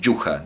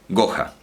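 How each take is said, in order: First: The name starts with a soft j-like sound. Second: The name starts with a hard g sound. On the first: "no dicen yuja" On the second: "dicen goja, porque la u también la abren"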